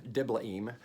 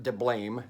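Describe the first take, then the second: First: Diblaim with the last vowels kept apart, dib-la-EEM; no diphthong. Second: Diblaim with the middle run together as BLAME; diphthong mispronunciation. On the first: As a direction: say Diblaim in three syllables, a and i separate. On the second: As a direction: say Diblaim in two syllables, dib-LAME. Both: Shown as a demonstration. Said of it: "there are no diphthongs in Hebrew".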